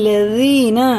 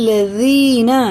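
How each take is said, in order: No difference in how they are said.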